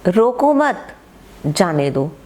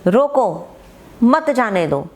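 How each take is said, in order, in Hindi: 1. विराम 'mat' के बाद आता है। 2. विराम 'roko' के बाद आता है। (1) "मैं रोको मत कहकर कोमा लगा दूं" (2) "एक में कहा रोको, रोक लो, मत जाने दो"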